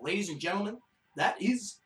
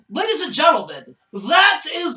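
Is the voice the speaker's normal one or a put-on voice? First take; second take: normal; put-on. First: It is said in the speaker's ordinary voice. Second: It is said in a put-on announcer-style voice.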